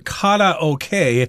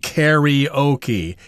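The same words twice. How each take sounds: First: The word is said with a Chinese pronunciation. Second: The word is said with an English 'e' sound. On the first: "as you call it in Chinese" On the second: "in English we often pronounce this karaoke, even though the spelling has an A in there, but it's pronounced like an E"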